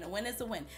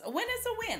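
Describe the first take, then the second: First: Said in the usual way. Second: "A win is a win." jumps way up high, sing-song; emphatic catchphrase. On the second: Real, not acted. Vlogger stressing that any discount counts, pitched way up. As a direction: toss the phrase up high like a punchline.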